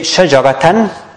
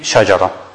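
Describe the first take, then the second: First: The word ends with -tan. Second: The word ends with -ra, no n. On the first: The reading continues without stopping. "let's say shajaratan" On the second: The reading stops on this word. "if you stop on it, it will be shajara"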